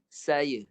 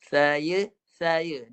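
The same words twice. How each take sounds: First: "Saya" with a clean s, tongue pulled back inside; correct s. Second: "Saya" with s lisped as th, tongue sticking out; slushy lisp. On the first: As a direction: say "Saya" with a crisp s and the tongue behind the teeth. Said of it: "Guna makhraj huruf sin". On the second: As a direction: say "saya" with the tongue between the teeth. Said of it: "dia pelat S". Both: Shown as a demonstration.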